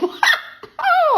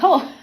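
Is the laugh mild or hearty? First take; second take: hearty; mild. First: It is a loud, hearty laugh. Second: It is a small, mild laugh.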